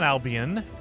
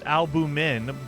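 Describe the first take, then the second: First: The word is said as al-bee-un, without an m. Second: The word is said as al-byoo-min, with an m. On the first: The speaker calls it wrong. "It's not Albion" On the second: The speaker calls it right. "It's albumin"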